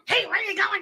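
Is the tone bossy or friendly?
bossy. It sounds bossy and demanding.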